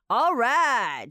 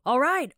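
First: It is exclaimed with excited admiration. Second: It is said in a sharp, irritated way. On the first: You think someone did something amazing. "你就可以惊呼，就是表示你觉得他很厉害" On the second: You are annoyed at being nagged. "有点不耐烦哦，就alright alright 的那种感觉"

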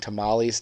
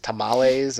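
First: It is said in a plain Midwestern American accent. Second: It is said in a Mexican Spanish accent.

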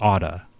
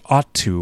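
First: The words blend into one reduced word. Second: Both words are said fully, with a clear t. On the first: "He says oughta" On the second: "clearly say ought to"

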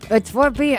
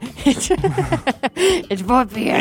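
First: It is said in the speaker's normal voice. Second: It is said in a put-on Batman voice.

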